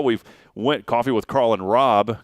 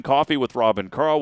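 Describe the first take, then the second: First: Carl drawn out slowly and leaned on; slow, Carl stretched out and stressed. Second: Said in the usual way. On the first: Shown as a demonstration. Correcting the show name order, Carl slowed and stressed. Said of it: "'cause I like the K's together".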